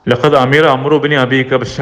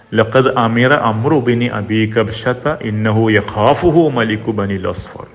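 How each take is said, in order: First: Said in the usual way. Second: Slow measured Arabic intoning; slow recitation. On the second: Acted. Preacher reciting Abu Sufyan's words to the audience, slow intoning. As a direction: draw the hadith out like a recitation.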